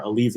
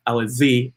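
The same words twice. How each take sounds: First: Alize said softer and lower, as "uh-LEEZ"; corrected pronunciation. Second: Alize said with a clear "zee" ending; first pronunciation. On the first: Correcting himself on the horse's name, Alize as "uh-LEEZ". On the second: Naming the horse to focus on, Alize ending in "zee". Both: Real, not acted. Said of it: "excuse me".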